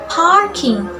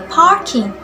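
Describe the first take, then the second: Both takes have the same delivery.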